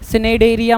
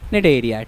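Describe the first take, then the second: First: The word begins with a spoken s sound. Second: The word begins directly with an n sound. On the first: The speaker calls it wrong. "सिनेडेरिया मत बोलना" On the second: The speaker calls it right. "सी silent है भाई"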